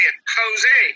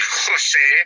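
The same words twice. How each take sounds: First: It starts with a soft American h sound. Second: It starts with a throaty Spanish jota sound.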